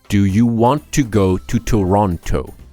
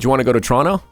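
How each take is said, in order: First: Every word is pronounced slowly and clearly. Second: The words are reduced and run together quickly. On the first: This is the careful form taught to learners. "Slow and precise pronunciation is obviously essential for learning" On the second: This is how people speak naturally in everyday talk. "Where did all those words go?"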